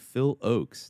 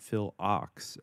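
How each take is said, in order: First: The surname rhymes with 'oaks', with a long vowel. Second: The surname rhymes with 'ox', with a short vowel. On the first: The speaker calls it right. "It is apparently Phil Oaks" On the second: The speaker calls it wrong. "not Phil Ox, as I always used to say"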